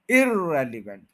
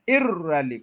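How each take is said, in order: First: irrelevant stressed on the first ई; irrelevant with the common wrong ई stress. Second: इररेलिव- with stress wrongly on ई. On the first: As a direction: put stress on ई in irrelevant, the error. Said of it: "ये गलत हो गया". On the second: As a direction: hit the ई in इररेलिव- by mistake. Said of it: "ये गलत है". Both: Shown as a demonstration.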